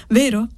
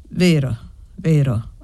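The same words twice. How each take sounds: First: Put-on high little-girl tag question; insistent child. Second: Low, grave woman's admission. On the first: Child demanding Annessa's agreement, insistent high voice. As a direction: demand a yes in a small, high voice. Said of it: "con accento che non ammetteva una risposta negativa". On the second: Woman conceding to the insistent child, grave low voice. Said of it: "ammise la donna con voce grave". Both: A narrator's reading.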